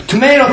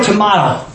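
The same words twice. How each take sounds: First: "tomato" with an AY middle, to-MAY-to; long A in "tomato", as in "may"; first pronunciation. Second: "tomato" with an AH middle, to-MAH-to; second pronunciation. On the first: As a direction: say "tomato" as tuh-MAY-toh. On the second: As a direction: say "tomato" as tuh-MAH-toh. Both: Shown as a demonstration. Contrasts two ways of saying it.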